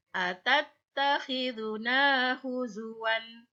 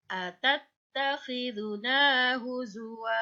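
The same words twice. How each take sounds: First: Slow recited "huzuwan" with nunation; "huzuwan" chanted slowly with the final "wan"; Quran recitation. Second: "huzwa" ending in a drawn-out "waa"; "huzwa" chanted slowly, last vowel held two beats; long final vowel. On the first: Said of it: "dijadikan mat iwat". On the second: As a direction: recite slowly and stretch the final "wa". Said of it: "Wa-nya dipanjangkan". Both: Shown as a demonstration.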